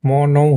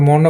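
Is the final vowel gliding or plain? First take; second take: gliding; plain. First: The final vowel glides like ou. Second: The final vowel is a plain short o. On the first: The speaker calls it right. "কিন্তু এটা হবে হলো আপনার ম নৌ" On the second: The speaker calls it wrong. "এটা কিন্তু মনো বলি আমরা"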